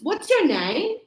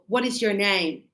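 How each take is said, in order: First: What is is contracted into one syllable. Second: What is is said as two full words. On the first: The speaker calls it right. "I say" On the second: The speaker calls it wrong. "I don't say"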